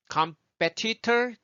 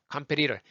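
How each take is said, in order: First: Competitor higher, with every T crisp; careful "com-pe-ti-tor"; full T sound. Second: Competitor as "kam-pe-ri-rer"; relaxed American flaps in competitor; easy flapped T. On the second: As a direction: loosen both Ts of competitor into taps. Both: Shown as a demonstration. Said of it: "말이 훨씬 편해요".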